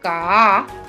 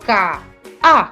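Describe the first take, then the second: First: The vowels run together with no break. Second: A brief catch separates the two vowels. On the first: The speaker calls it wrong. "si yo pronuncio K-A, yo no estoy pronunciando el, el puso" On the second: The speaker calls it right. "hay como un silencio, una separación"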